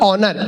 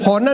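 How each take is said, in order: First: The word begins with a vowel sound. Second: The word begins with an H sound. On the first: The speaker calls it right. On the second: The speaker calls it wrong. "होनर नहीं"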